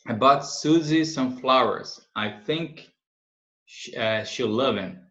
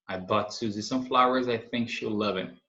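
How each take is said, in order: First: Slow, careful example sentence; slow model reading. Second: Said in the usual way. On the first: Shown as a demonstration. Teacher reading the example slowly to students. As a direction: read it slowly for the class to follow. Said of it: "slow model reading". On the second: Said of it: "repeat at normal pace".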